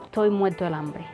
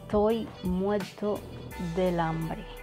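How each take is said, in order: First: The d sound is dropped and vowels linked. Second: The d sound is pronounced clearly.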